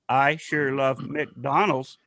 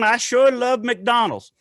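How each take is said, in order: First: It is said in a flat robotic voice. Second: It is said in a natural human voice. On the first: No particular kind of person is saying it. "have now a computer voice" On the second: A particular kind of person is saying it.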